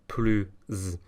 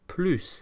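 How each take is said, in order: First: The final s is sounded as z. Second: The final s is silent. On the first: The speaker calls it right. "the S is liaised, ... the S sounds more like a Z" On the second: The speaker calls it wrong. "we're not going to pronounce it plus"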